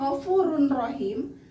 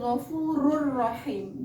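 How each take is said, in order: First: The n sound is pronounced before the r. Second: The n sound merges fully into the r. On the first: The speaker calls it wrong. "yang seharusnya ghafurun rohim" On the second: The speaker calls it right. "maka bacanya bukan run rohim, tapi ghafurur rohim"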